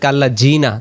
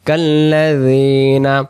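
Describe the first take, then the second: First: The middle consonant is a 'j' sound. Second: The middle consonant is a soft 'dh' sound. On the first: The speaker calls it wrong. "তখন কিন্তু এটা জিমে রূপান্তরিত হবে" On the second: The speaker calls it right. "জাল অক্ষর জিহ্বার আগা থেকে নরম করে পড়তে হবে"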